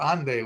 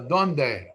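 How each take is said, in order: First: It is pronounced the Ladino way, starting with a. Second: It is pronounced the standard Spanish way.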